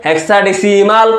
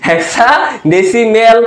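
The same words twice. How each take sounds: First: হেক্সাডেসিমাল ending in -মাল, slow; the tutor's way. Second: হেক্সাডেসিমেল ending in -মেল, slow; the students' way. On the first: Tutor giving his own হেক্সাডেসিমাল pronunciation. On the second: Tutor mimicking how students say হেক্সাডেসিমেল. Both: Shown as a demonstration. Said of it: "যেটা উচ্চারণ করো তোমরা".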